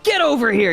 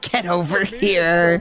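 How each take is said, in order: First: It is shouted with high intensity. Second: It is said flatly, without intensity.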